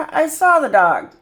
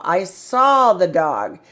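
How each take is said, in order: First: "saw" lifted and louder; stress on saw. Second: Saw drawn out and stressed, slow. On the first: Teacher contrasting "see" with "saw" for a child. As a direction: punch "saw" against "see". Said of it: "but it means you already did it". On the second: Teacher stressing "saw" for a young reader. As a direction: lean on the word "saw" slowly. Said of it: "This means you did it". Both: Shown as a demonstration.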